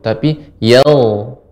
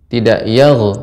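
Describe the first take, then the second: First: The gh sound is drawn out and flowing. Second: The gh sound is cut off abruptly. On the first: The speaker calls it right. "Panjangkan dia ibu" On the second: The speaker calls it wrong.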